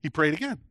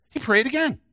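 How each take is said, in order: First: Said in the usual way. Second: Much higher pitch, lifting on "again"; emphatic repeat. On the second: Real, not acted. Preacher repeating that Jesus prayed again, emphatically raised. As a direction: drive the point home with a raised voice.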